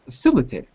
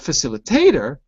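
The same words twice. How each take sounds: First: The stress is on the second syllable. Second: The stress is on the fourth syllable. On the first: The speaker calls it right. "it's got to be on the ... second syllable" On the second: The speaker calls it wrong. "I was hearing you on the fourth syllable"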